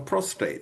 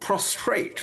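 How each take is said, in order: First: No r sound follows the t. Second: An extra r sound follows the t. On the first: The speaker calls it right. "rather than prostate" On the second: The speaker calls it wrong. "even the politicians pronounce it wrong"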